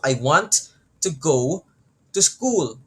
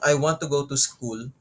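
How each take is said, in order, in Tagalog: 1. Ang mahahalagang salita ay binibigkas nang mas malakas, mas mahaba, at mas madiin. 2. Binigkas ang pangungusap nang pantay, walang dagdag na diin. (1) "it's like you're enforcing" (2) "normal lang siya"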